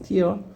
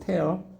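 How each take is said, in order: First: The vowel sounds like the word 'ear'. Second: The vowel sounds like the word 'air'. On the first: It means a drop from the eye. "명사로 쓰면 눈물 발음 어떻게 된다 그랬어?" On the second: It means to rip apart. "동사로 쓰면 뭐라고 했어 발음?"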